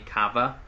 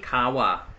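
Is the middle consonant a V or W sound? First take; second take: V; W. First: The middle consonant is a V sound. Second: The middle consonant is a W sound. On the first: The speaker calls it right. "the word is K A V A, Kava" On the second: The speaker calls it wrong. "I'm saying Kawa because uh, Thai doesn't have the um, the V sound"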